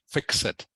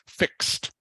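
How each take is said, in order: First: It ends in an added 'ed' syllable. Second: It ends in a T sound, one syllable. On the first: The speaker calls it wrong. "not ed" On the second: The speaker calls it right. "it is pronounced like this is a T on the end"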